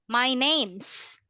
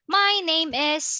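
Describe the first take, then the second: First: The verb is squeezed onto the noun. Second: Each word is said separately, in full. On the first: "it becomes" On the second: "getting the words shorter? Like this one"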